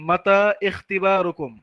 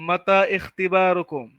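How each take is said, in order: The two takes are said the same way.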